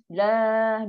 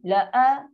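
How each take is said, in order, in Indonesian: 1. Vokal pertama dibaca panjang. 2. Vokal pertama pendek, lalu hentian glotal. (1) "Dia baca panjang. So salah" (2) "Ini berasing"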